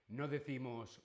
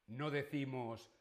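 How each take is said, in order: No difference in how they are said.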